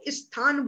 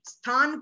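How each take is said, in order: First: An extra 'i' vowel comes before the 'st' sound. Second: The word starts directly with the 'st' sound. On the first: The speaker calls it wrong. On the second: The speaker calls it right.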